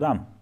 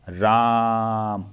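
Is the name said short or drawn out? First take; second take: short; drawn out. First: It is said short at normal volume. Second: It is shouted and drawn out.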